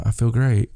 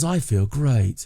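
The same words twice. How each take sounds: First: Said in the usual way. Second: Put-on British accent. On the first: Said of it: "And I'll, I'll be like". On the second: Wife telling her husband how she feels, mock British accent. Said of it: "the terrible British accent".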